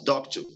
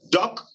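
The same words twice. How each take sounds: First: "doctor" wrongly stressed on TOR; stress on second syllable. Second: DOC in "doctor" stressed, then a lighter "tor"; stress on first syllable. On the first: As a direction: shift the weight to the end of "doctor". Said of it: "not doctor". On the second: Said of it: "the first syllable given stress". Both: Shown as a demonstration.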